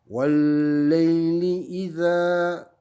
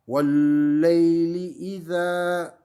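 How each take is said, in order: Both takes have the same delivery.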